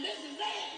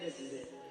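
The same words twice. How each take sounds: First: It is said in a celebratory, upbeat way. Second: It is said in a grim, ominous way.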